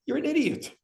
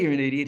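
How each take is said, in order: First: Scornful jab. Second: Said in the usual way. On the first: Retold or imitated. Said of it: "the guy who doesn't care about anything goes". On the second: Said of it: "He doesn't say you're an idiot".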